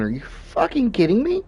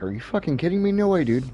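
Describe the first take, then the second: First: "Are you fucking kidding me?" pitched very high in a put-on voice; high, hammed-up incredulous cry; stunned disbelief. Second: "Are you fucking kidding me?" thrown up high in retold disbelief; half-joking incredulous outburst; mock disbelief. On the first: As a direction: squeal the disbelief at the rival's lap. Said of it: "I'm over here going". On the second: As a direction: replay the shock of being put in the pro division. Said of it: "And it was like".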